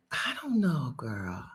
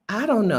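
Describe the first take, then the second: First: Breathy unvoiced whisper of doubt. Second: Said in the usual way. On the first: Real, not acted. Unsure of accent's future, she whispers aside. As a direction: drop to a whisper, half to herself.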